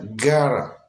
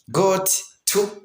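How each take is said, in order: First: The words merge with a flapped middle sound. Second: Both words are said fully with a clear t.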